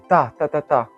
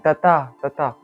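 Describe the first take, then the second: First: The first beat is the loudest. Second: The second beat is the loudest. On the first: "le premier, il est tapé fort" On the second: "le deuxième est tapé fort"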